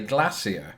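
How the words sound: Glacier is pronounced the British way. "some British people do in fact say glacier"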